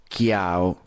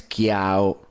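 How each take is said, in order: No difference in how they are said.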